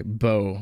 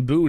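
First: "Bo" with a long o vowel; corrected pronunciation. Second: "Boo" with a long oo vowel; mispronounced name. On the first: Reader accepting a correction of the name, pronounced "Bo". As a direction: say "Bo" to rhyme with "go". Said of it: "I don't speak French". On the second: Reader guessing at the son's name, mispronounced as "Boo". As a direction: say "Boo" to rhyme with "two". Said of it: "I'm assuming I'm pronouncing that right". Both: Real, not acted.

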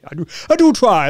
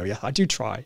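First: Higher, louder hammed-up posh British accent. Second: Said in the usual way. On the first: Shown as a demonstration. Playing up to a viewer's compliment in a mock posh British accent. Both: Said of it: "That's my, my posh British accent".

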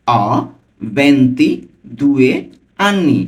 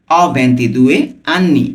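First: ভেন্তিদুয়ে drawn out very slowly, syllable by syllable; broken up slowly. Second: Said in the usual way. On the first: Shown as a demonstration. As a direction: say অ, pause, then ভেন্তিদুয়ে stretched out slowly. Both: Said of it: "আমি কিন্তু ভেঙে ভেঙে বলছি".

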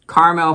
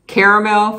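First: "caramel" said KAR-mel, two syllables. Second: "Caramel" said KARE-uh-mel, three syllables. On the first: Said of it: "caramel for the second". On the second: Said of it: "Caramel for the first". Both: Shown as a demonstration.

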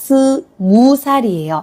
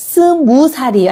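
First: Slow, careful. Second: Fast, natural-speed Korean sentence; reading fast. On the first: Teacher slowly spells out the tricky word for students. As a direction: split 스 from 무 살이에요 with a pause. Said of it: "อันนี้ระวังเนาะ เขียนตรงนี้ระวัง". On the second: Teacher reads quickly to students as in normal speech. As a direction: rattle it off at everyday speed. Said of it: "ครูอ่านเร็วเนาะ". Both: Shown as a demonstration.

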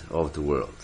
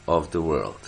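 Both takes have the same delivery.

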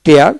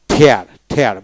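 First: Said in the usual way. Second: "ঠেয়ার" with a puff of air after the T; British aspirated T. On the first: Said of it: "পাশাপাশি কিন্তু". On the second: Shown as a demonstration. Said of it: "British pronunciation ঠেয়ার".

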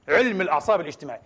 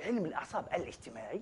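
First: Said in the usual way. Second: علم الأعصاب الاجتماعي repeated much softer, almost to himself; quiet repeat. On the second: Shown as a demonstration. Preacher repeating the field's name to himself, hushed. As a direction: echo the name under your breath.

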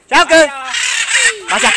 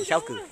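First: High, loud call to a bird. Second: Said in the usual way. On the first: Real, not acted. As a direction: shout the name up to the sky. Calling the bird back.

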